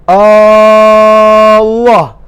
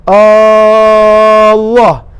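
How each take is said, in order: Both takes have the same delivery.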